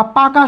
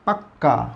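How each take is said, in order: First: Said in the usual way. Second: "পাক্কা" with a held double k, dropping low; emphatic doubled consonant. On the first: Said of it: "শব্দটাকে জোর দিতে গেলে কী বলি". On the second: Shown as a demonstration. Teacher repeats the emphatic form for students, "পাক্কা" with doubled k. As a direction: hold the k in "পাক্কা" before releasing it. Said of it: "জোর দিতে গেলে কী বলি".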